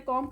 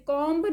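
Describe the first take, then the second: First: "कॉम्ब" ending on M, kom; correct silent B. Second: "कॉम्ब" with a full B at the end; wrong sounded B. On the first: Teacher showing the right reading, correct silent B. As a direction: drop the B from "कॉम्ब". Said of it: "बी silent होता है". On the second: Teacher showing the full B not to say, wrong sounded B. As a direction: voice the B after the M in "कॉम्ब". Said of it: "पूरा ब नहीं पढ़ते". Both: Shown as a demonstration.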